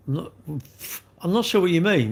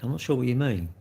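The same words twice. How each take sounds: First: Exasperated repeat. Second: Said in the usual way. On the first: Real, not acted.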